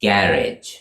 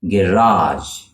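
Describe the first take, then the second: First: "garage" as GARR-idge, falling; British "garage" with a short weak ending; British first-syllable stress. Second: "garage" as guh-RAHZH, falling; American "garage" with a long ah; American second-syllable stress. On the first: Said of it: "with the stress on the first syllable". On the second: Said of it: "with the stress on the second syllable". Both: Shown as a demonstration.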